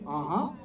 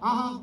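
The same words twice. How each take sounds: First: It is said with rich, elaborate expression. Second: It is said plainly, like ordinary speech.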